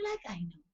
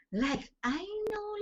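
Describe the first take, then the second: First: Said in the usual way. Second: Like I know, pitched high and slow, leaning on know; insistent stress. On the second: Real, not acted. Preacher insisting on her faith, high and slow like I know. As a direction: stretch "know" out firmly. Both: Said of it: "repeats to insist".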